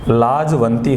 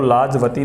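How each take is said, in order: First: There is a nasal sound before the 't'. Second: There is no nasal sound before the 't'. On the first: The speaker calls it right. "लाजवंती होता है" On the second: The speaker calls it wrong. "लाजवती नहीं होता"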